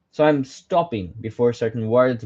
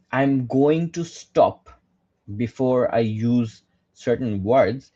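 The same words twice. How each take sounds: First: Said in the usual way. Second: Slow, with a deliberate pause before "words"; dramatic pauses. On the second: Shown as a demonstration. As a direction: stop hard before "certain words" to make them land.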